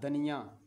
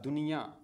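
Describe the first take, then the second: First: The first vowel is a short a. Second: The first vowel is a short u. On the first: The speaker calls it wrong. "दाल ज़बर नून दन ये या दनिया, या दनिया तो कोई लफ्ज़ नहीं है" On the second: The speaker calls it right. "दाल नून पेश दुन ये या दुनिया। अब सही है"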